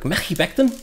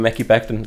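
First: Higher-pitched, badly attempted Scouse lilt; bad Scouse accent. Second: Said in the usual way. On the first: Card breaker teasing Liam about saying the name, bad Scouse accent. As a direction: have a terrible go at a questioning Scouse accent. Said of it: "it's a Scouse accent". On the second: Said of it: "Like, Mekhi Becton?".

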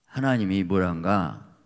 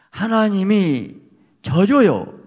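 First: Said in the usual way. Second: Loud, high and slow, 하나님이 stretched and falling; preaching climax. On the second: Real, not acted. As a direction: hammer the point home slowly. Climax of the sermon point. (설교 절정에서 크고 느리게 외치듯)

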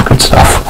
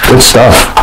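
First: Whispered aside. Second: Said in the usual way. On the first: Shown as a demonstration. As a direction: whisper "Good stuff" softly, no voice.

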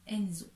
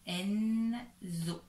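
First: "Enzo" in one quicker word; joined-up name. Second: "Enzo" as two separated syllables; sounded-out name. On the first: Teacher attaches the syllables, said as one word. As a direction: run "en" and "zo" together. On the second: Teacher reads the last name, split and drawn out. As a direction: hold "en", then "zo". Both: Shown as a demonstration. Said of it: "il faut attacher".

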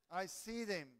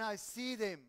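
First: Said in the usual way. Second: Said with louder emphasis on SEE; loud, pointed I see them; emphatic. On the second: Real, not acted. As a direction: punch "see" out loudly.

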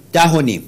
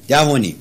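No difference in how they are said.

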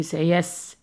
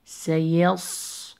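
First: سيس with a thin plain S; wrong light S. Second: سيص slow, with a long heavy ص; strong heavy sad. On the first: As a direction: end سيس on an English-style S. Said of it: "Do not say". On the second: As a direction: thicken and hold the ص ending سيص. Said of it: "Sound strong". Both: Shown as a demonstration.

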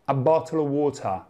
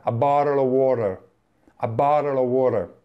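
First: "a bottle of water" with hard Ts as spelled; the textbook way nobody says; "a bottle of water" with stiff full Ts; written spelling. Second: "a bottle of water" with flapped T and strong R, like "barel o worer"; "a bottle of water" in American English, T turned to a flap. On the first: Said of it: "In nessuno di questi casi dici". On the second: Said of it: "in American English la R ... si pronuncia". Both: Shown as a demonstration.

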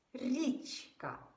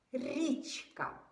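Both takes have the same delivery.

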